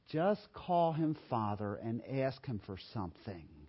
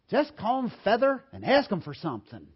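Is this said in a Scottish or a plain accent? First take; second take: plain; Scottish. First: It is said in the speaker's ordinary accent. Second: It is said in a Scottish accent.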